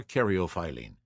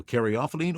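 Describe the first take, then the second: First: Caryophyllene in the alternate pronunciation. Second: Said in the usual way. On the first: Shown as a demonstration. Presenter compares two versions of caryophyllene, alternate pronunciation. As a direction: offer the second way to say caryophyllene. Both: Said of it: "I have also heard an alternate pronunciation".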